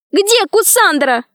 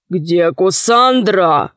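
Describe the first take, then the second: First: Put-on high, drawn-out girl's cry; high-pitched pleading demand; cried out. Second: Slow, steady demand; deliberate, weighty question; stern hero. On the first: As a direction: call out in a high, urgent voice. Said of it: "закричала Алиса". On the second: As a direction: ask slowly and sternly, as a hero. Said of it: "спросил Сила". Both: A narrator's reading.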